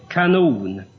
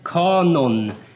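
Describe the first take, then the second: First: The stress is on the second syllable. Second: The stress is on the first syllable. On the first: The word means a weapon. The speaker calls it wrong. "inte kanon" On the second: The word means a rule or standard. The speaker calls it right. "utan uttalet är kanon"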